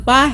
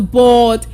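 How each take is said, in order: First: The vowel does not sound like 'bored'. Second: The vowel sounds like the one in 'bored'. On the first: The speaker calls it wrong. "you don't say" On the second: The speaker calls it right. "Rather, you say"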